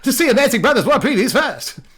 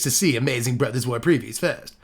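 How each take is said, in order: First: It is said in a put-on cartoon voice. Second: It is said in a plain, normal voice.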